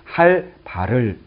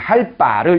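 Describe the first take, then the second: First: Said with a pause, with a plain b sound. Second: Said without a pause, with a tense b sound. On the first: "휴지를 둬서 얘를 좀 쉬면서 좀 띄어서 읽을 때는" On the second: "리을 뒤에 이 녀석이 된소리로 발음될 수 있다"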